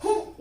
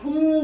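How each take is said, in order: First: "हूँ" cut short as hun; a brief, short-u "हूँ"; wrong short vowel. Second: "हूँ" held long and nasal; correct long vowel. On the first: Teacher showing the error, "हूँ" with short u. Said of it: "हूँ नहीं बोलते". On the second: Teacher correcting students, "हूँ" with long oo. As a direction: stretch "हूँ" into a louder hooon. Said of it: "हूँ बोलते हैं". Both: Shown as a demonstration.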